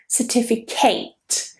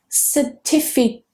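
First: The final syllable has a full 'ate' vowel. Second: The final syllable has a weak schwa vowel. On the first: The speaker calls it wrong. "Notice that I'm not saying certificate" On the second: The speaker calls it right. "So that ending is very weak. It's with a schwa"

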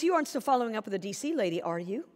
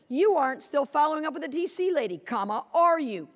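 First: It sounds light and friendly. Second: It sounds accusing and upset.

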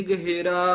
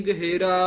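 The two takes are said the same way.

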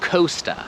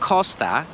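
First: The o is an English o sound. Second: The o is a Polish o sound. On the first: The speaker calls it wrong. "ale ja mówiłem Costa, bo O po angielsku jest O" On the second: The speaker calls it right. "po polsku jest Costa, jest takie O"

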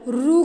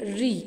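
First: The letter is pronounced with a 'u' vowel. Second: The letter is pronounced with an 'i' vowel. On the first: This is how it is said in Kannada. "Kannada में आप इसका उच्चार रू करते हो" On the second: This is how it is said in Hindi. "Hindi में हम इसका उच्चार करेंगे री"

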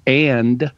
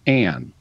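First: The word ends with a d sound. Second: The word ends with an n sound. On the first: "So and becomes an" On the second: "you tend to drop the plosive"

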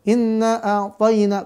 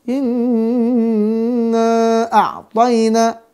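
First: The nasal n sound is cut short. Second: The nasal n sound is held for two or three counts. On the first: The speaker calls it wrong. "yang salah ... kurang" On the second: The speaker calls it right.

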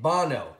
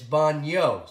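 First: The middle consonant is a plain n sound. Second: The middle consonant is an ny sound. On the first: The speaker calls it wrong. "if we don't put the tilde over the N, we would pronounce it bano" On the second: The speaker calls it right. "but it's baño"

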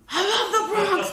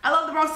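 First: It is said with strong, excited feeling. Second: It is said in a flat, casual way.

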